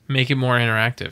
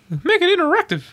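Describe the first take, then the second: First: It is said in his normal voice. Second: It is said in a Mickey Mouse voice.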